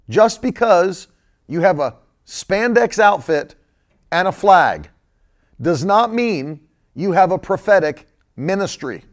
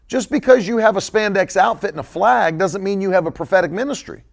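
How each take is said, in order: First: It is said slowly and deliberately. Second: It is said at a normal pace.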